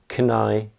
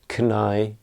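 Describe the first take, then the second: No difference in how they are said.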